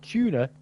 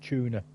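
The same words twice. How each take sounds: First: The word begins with a plain t sound. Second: The word begins with a ch sound. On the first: The speaker calls it wrong. "Not tuna" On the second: The speaker calls it right.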